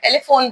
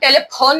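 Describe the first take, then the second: First: The 'ph' is said as an f sound. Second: The 'ph' is said as a p sound. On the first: The speaker calls it right. "टेलीफोन बोलते हैं" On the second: The speaker calls it wrong. "हम टेलीफोन नहीं बोलते हैं"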